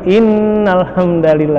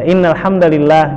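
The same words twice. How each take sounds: First: The nn is held with a long nasal hum. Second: The nn is short without a nasal hum. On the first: It follows the rules for reciting scripture. "pakai gunnah" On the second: It is the ordinary way in a speech. "ya innal hamdalillah gitu"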